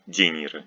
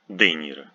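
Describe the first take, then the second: First: The d before e is softened. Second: The d before e stays hard. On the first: The speaker calls it wrong. "we don't say De, De Niro, no" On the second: The speaker calls it right. "The is not softened"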